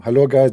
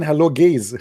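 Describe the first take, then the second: First: Said in the usual way. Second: "gays" with a long "ay" vowel, meant as guys; mispronounced greeting. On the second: Retold or imitated. Newcomer greeting chat room with "gays" for guys, mispronounced. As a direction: say "gays" where guys is meant, laugh breaking in. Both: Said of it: "later I noticed I was saying".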